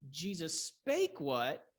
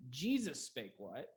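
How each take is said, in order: First: Very slow, SPAKE drawn out and punched; stress on SPAKE. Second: Slow, with JESUS stressed. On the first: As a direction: hit the verb spake, not Jesus. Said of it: "The verb is emphasized". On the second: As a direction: lean on the name Jesus, then ask what. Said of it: "The emphasis tells you what's going to change". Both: Shown as a demonstration.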